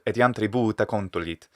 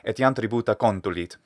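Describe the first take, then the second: First: The vowel in 'bu' is held longer. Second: The vowel in 'bu' is short and compressed. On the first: The speaker calls it right. "keeping that bu a little bit longer" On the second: The speaker calls it wrong. "He's compressing it into"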